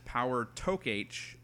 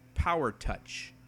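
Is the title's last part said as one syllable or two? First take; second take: two; one. First: The last part is two syllables, talk and aitch. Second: The last part is one syllable, touch. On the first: "I always read it in my mind as Power Talk H" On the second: "some would pronounce it Power Touch"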